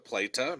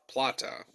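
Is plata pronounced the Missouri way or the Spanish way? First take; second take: Missouri; Spanish. First: The word has a changed local Missouri pronunciation. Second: The word has its original Spanish pronunciation. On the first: "changed to plata, maybe the uh, Missouri pronunciations" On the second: "the Spanish word"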